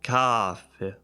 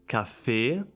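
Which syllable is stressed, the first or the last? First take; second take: first; last. First: The stress is on the first syllable. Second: The stress is on the last syllable. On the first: The speaker calls it wrong. "It's not like café" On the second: The speaker calls it right. "It's like café"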